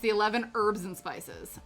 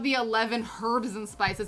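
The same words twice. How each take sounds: First: The H at the start of herbs is silent. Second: The H at the start of herbs is pronounced. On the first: The speaker calls it right. "The H is silent" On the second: The speaker calls it wrong. "it's not"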